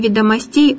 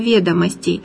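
First: The stress falls on the ending. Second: The stress falls on the first syllable. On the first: The speaker calls it wrong. "будет не ведомостей" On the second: The speaker calls it right. "а ведомостей"

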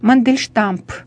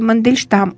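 First: The name ends with an added p sound. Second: The name ends with an m sound. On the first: The speaker calls it wrong. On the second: The speaker calls it right.

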